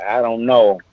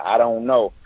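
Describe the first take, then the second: First: Said in the usual way. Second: Flat helpless I don't know; a hint of bewildered young comic; clueless shrug. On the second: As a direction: say it like you truly have no idea. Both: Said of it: "I just said it just like that".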